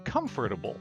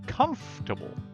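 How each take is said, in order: First: The word is said with four syllables. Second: The word is said with three syllables. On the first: The speaker calls it wrong. "it looks like it should have four syllables. They say comfortable" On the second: The speaker calls it right. "will only use three syllables and say comfortable"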